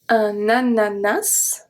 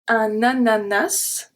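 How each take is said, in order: First: The final S sound is pronounced. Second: The same.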